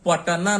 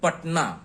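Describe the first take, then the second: First: A full vowel follows the middle consonant. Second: No vowel follows the middle consonant. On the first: The speaker calls it wrong. "पटना नहीं कहते हैं" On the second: The speaker calls it right. "ट का पूरा उच्चारण नहीं है"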